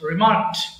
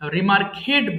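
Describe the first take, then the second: First: The ending is a short 't' sound, no extra syllable. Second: The ending is a separate 'ed' syllable. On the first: The speaker calls it right. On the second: The speaker calls it wrong.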